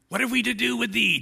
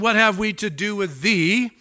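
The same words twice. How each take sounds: First: It is said in a creepy put-on voice. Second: It is read in a normal speaking voice. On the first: "it should be like a creepy demon voice" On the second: "I probably should have read that with a demon voice"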